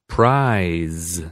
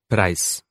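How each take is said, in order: First: The word ends with a buzzing z sound. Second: The word ends with a hissing s sound. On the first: The speaker calls it right. "this time with the consonants at the end pronounced correctly" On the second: The speaker calls it wrong. "I've read them the same way, all with the sound s"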